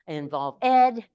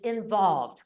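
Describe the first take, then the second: First: The ending is said as a separate extra syllable. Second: The ending blends into the word without extra syllable. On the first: The speaker calls it wrong. "students learning English go ed" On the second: The speaker calls it right. "I just pronounced the word for them to correct that error"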